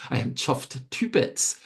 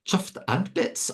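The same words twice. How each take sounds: First: Firm stress on "to"; corrected phrase. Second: Slow, high-pitched questioning stress on "and"; incredulous self-correction. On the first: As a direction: fix the slip by landing clearly on "to". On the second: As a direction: query your own slip, pushing "and" up high. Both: Real, not acted. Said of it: "I'm not chuffed and bits".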